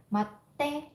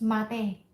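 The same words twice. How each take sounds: First: "Mate" said short, no pause before te; plain short "Mate"; without small tsu. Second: "mate" slowed with a held catch before te; slow "mate" with a stop before te; with small tsu. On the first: Teacher demonstrates the rude short form, plain and short. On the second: Teacher demonstrates the polite form with the held tsu. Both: Shown as a demonstration. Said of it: "a small tsu in here".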